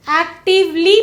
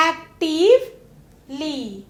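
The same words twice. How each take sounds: First: Said in the usual way. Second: actively broken into slow parts, pause before ली; slow teacherly actively with ली set apart; split before suffix. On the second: Shown as a demonstration. Word split to show suffix.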